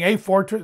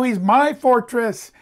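First: "a fortress" with "a" said as a full AY; stress on A. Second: "my" punched high in "he's my fortress"; stress on MY. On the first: Preacher showing what David is not saying, "a" stressed in "a fortress". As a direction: lean on "a" as the impersonal word. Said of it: "He's not just saying". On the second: Preacher insisting David says my fortress, "my" strongly stressed. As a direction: correct it with a high, emphatic "my". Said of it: "He's not just saying a fortress. No". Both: Shown as a demonstration.

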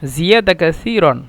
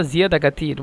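First: জিয়াদা কাসিরন with a hissed th, not a t; standard Arabic "tha". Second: জিয়াদা কাসির with a hard t in place of the s/th; জিয়াদা কাসির ending clipped to "katir", no -an; Egyptian t sound. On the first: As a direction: say কাসিরন slowly as "kathiran", full standard ending. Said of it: "বলছিলাম সাকে মিশ্র তা". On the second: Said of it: "মিশরের ভাষা". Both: Shown as a demonstration.

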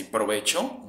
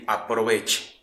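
First: "provecho" with no opening A, ending in O; Mexican usage. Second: "aproveche" with an opening A, ending in E; regional variant. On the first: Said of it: "the word that I say". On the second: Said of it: "but they say". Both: Shown as a demonstration.

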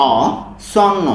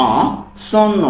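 No difference in how they are said.

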